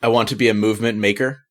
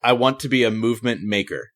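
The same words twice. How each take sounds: First: Maker lifting up at the end; rising question. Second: Maker falling to a clear period; firm statement. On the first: First reading the coach rejects, rising on maker. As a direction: read it tentatively, rising on maker. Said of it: "No, please read it". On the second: Client's reading that impresses the coach, falling on maker. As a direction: read it with conviction, landing maker. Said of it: "Oh, my goodness". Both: Shown as a demonstration.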